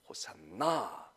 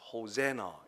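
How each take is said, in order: First: The stress is on the last syllable. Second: The stress is on the middle syllable. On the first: "원래는 끝에 가서 액센트가 있습니다" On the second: "중간 음에다가 액센트를 주어서"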